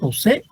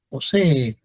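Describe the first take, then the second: First: The two final E vowels merge into one. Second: Both final E vowels are sounded separately. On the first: The speaker calls it wrong. "ustedes lo, lo dicen posee" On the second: The speaker calls it right. "Suenan las dos E"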